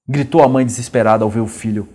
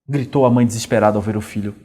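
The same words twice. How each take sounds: The two takes are said the same way.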